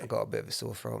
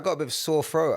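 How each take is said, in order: First: It is said in a sadder, gloomier tone. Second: It is said in a plain, neutral tone.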